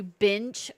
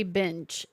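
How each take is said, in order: First: "bench" said as "binch"; short i in "bench", like "pinch". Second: Said in the usual way. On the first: Retold or imitated. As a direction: put an I in "bench" so it sounds like "binch". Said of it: "with an I to me". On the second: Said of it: "the way I say bench".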